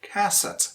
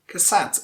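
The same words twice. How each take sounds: First: "cassette" as CASS-ette, first syllable weighted; first-syllable stress. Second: "cassette" as cass-ETTE, second syllable longer; quick first syllable, weight on the end of "cassette"; second-syllable stress. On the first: Teacher shows mistaken word stress, on the first syllable. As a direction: hit the start of "cassette", drop the end. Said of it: "stress falls on the first syllable". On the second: Teacher shows correct word stress, second syllable. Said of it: "you stress the second syllable". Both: Shown as a demonstration.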